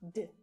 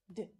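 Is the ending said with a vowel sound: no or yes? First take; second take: no; no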